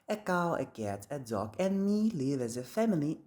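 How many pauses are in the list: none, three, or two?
none. The whole list runs on with no pauses. "In reality, people make no pause at all"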